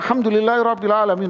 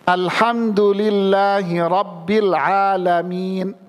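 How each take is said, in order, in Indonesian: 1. Dibaca dengan cepat, tanpa tempo yang terukur. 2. Dibaca dengan pelan, berhenti setelah ayat. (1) "Ini bukan tartil namanya" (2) "Tartil pelan-pelan"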